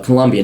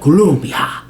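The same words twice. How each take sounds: First: The name is said with an English pronunciation. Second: The name is said with a Spanish pronunciation. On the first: The speaker calls it right. "it's uh" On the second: The speaker calls it wrong.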